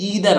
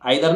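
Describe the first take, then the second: First: The first vowel sounds like 'ee'. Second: The first vowel sounds like 'eye'. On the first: The speaker calls it right. "ईदर और" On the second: The speaker calls it wrong. "आइदर नहीं है"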